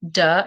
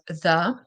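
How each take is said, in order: First: The word begins with a hard D sound. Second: The word begins with a soft TH sound. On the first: The speaker calls it wrong. "if you keep on saying duh instead of the" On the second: The speaker calls it right. "if it's the T H sound"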